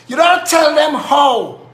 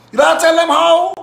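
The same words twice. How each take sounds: First: Slow, with "don't" hit hardest and a falling end; deliberate slow "don't", falling close; slow stress on don't. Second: "tell" hit hard with a rising finish; stress on tell. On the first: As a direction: drag it out, punching "don't". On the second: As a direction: lean on "tell" and lift the end. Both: Shown as a demonstration.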